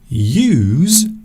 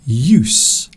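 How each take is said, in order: First: It is pronounced the way the verb is. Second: It is pronounced the way the noun is. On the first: It means to employ something. "a few moments ago I was talking about use" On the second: It means the value of something as a tool. "There is another pronunciation of this word"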